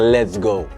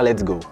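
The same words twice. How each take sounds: First: It is said with lively, high energy. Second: It is said flatly, without energy.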